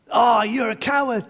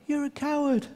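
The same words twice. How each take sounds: First: Higher, raised mock insult; boy angrily calls the echo a coward; angry taunt. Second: Higher but softer repeat; echo. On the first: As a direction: throw the word coward at him. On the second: Retold or imitated. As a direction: bounce back the insult faintly. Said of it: "you could hear an echo".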